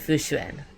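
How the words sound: The name is said with English-style sounds. "more of the English pronunciation than the Mandarin pronunciation"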